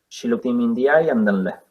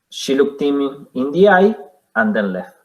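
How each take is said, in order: First: It runs on, 'eye' linking straight into 'and'. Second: It pauses after 'eye', with no link into 'and'.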